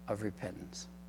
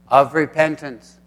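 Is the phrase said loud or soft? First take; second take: soft; loud. First: The voice drops and fades on the last word. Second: The voice stays up and clear on the last word. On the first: The speaker calls it wrong. "I was asked not to drop my voice at the end of my sentence" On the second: The speaker calls it right. "The last word I said was repentance"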